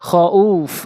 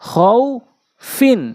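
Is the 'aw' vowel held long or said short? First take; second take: long; short. First: The word ends cut off with a long 'aw'. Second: The word runs on with a short 'aw' vowel. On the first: The reader stops on this word. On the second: The reader does not stop on this word.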